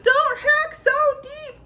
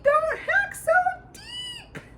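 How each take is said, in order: First: Very high, loud, slow tiny scream; top-of-the-lungs high squeal. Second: The cry climbs higher and falls away; desperate high squeak trailing off; screaming. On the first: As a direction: scream it at the butcher from inside the meat. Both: A narrator's reading. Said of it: "screamed at the top of his lungs".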